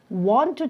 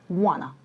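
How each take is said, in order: First: Both words are said fully and separately. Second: The words are merged into one reduced word.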